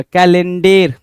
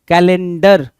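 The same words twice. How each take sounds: First: कैलेंडर ending in a long "-dair"; last syllable of कैलेंडर stretched to "dér"; wrong-spelling pronunciation. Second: कैलेंडर ending in a short "-dər"; loud, clear "dər" closing कैलेंडर; corrected pronunciation. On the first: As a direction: say कैलेंडर as misspelt, "ka-len-DEYR". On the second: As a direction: say कैलेंडर with a schwa, "ka-len-DUR". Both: Shown as a demonstration. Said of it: "कैलेंडर नहीं".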